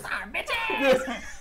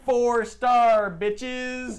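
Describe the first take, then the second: First: It is said in a put-on character voice. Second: It is said in the speaker's own natural voice.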